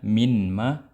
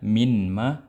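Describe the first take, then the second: First: The n sound is kept before m. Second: The n sound is kept before m.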